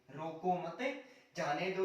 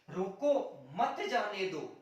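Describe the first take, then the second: First: There is a pause right after 'mat'. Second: There is a pause right after 'roko'.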